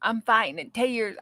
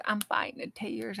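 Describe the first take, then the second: First: Said in the usual way. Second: Much softer, choked-back repeat; softly holding back tears. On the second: Real, not acted. Streamer moved by milestone, quietly fighting tears. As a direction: say it again under your breath, fighting tears. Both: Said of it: "I'm gonna cry".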